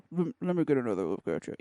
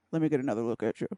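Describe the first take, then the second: First: Lips held still, low voice; talking with mouth closed. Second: Lips barely moving, low; talking with mouth closed. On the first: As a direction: keep your lips shut as you talk. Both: Shown as a demonstration. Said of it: "say it without moving your lips".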